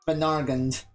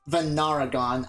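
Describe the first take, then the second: First: No extra vowel is added in the middle. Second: An extra vowel is added in the middle. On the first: The speaker calls it right. "You got it right now" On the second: The speaker calls it wrong. "I've always pronounced it as Venaragon. I added an extra A"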